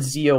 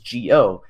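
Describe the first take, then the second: First: The name begins with a z sound. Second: The name begins with a soft g sound. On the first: The speaker calls it wrong. "I called it Zio when it was first announced" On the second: The speaker calls it right. "it's not a Z sound, so I say it that I say it that way in my videos"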